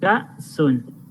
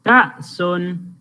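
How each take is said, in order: First: The word is said at a normal, quieter volume. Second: The word is said at a louder volume.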